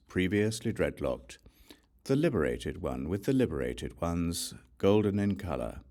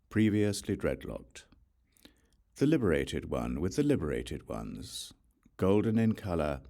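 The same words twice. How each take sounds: The two takes are said the same way.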